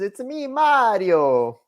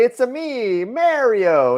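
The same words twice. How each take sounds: First: High, slow Mario catchphrase with a broad ah in Mario; Mario impression. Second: High, loud video game Mario voice; Mario impression. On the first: S1 showing how the game character really says it, high and slow. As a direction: drag out the plumber's catchphrase, MAH-rio. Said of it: "He says". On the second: S1 mocking the game hero's catchphrase in a high Mario voice. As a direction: play the plumber, big and bouncy. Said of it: "He doesn't say".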